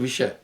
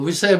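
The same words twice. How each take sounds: First: The middle consonant is an 'sh' sound. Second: The middle consonant is a plain 's' sound. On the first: The speaker calls it right. "जैसे विषय" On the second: The speaker calls it wrong. "वो विषय बोल रहा था"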